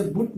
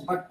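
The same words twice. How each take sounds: First: بٹ said as "boot" with a short u, like put; بٹ with the rounded u sound, the wrong way; wrong pronunciation. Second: بٹ said with a short open a, like the English word but; بٹ with a zabar vowel, the right way; correct pronunciation. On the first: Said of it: "بٹ غلط تلفظ ہے". (بٹ کو پیش سے غلط تلفظ) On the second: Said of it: "بٹ پڑھیں گے". (بٹ کو زبر سے صحیح تلفظ) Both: Shown as a demonstration.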